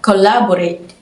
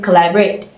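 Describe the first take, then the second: First: Every vowel is pronounced full and clear. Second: The unstressed vowels are reduced to schwa. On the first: "she pronounced it as collaborate" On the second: "the American collaborate"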